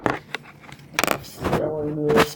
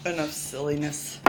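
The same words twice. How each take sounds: First: Slow, louder, drawn-out scold; mock scolding. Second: Said in the usual way. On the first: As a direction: stretch it out like a playful scold. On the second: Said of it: "Enough silliness, Bobby".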